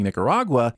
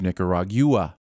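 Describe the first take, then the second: First: The word is said with a non-British pronunciation. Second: The word is said with a British pronunciation. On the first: The speaker calls it wrong. "by saying Nicaragua" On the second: The speaker calls it right. "instead of Nicaragua"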